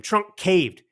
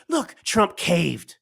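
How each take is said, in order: First: Said in the usual way. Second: Slow, drawn-out mock taunt of the Democrats. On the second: Commentator mimicking Democrats jeering at Trump, slow mocking taunt. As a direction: stretch it out like a jeering heckler. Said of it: "and they scream".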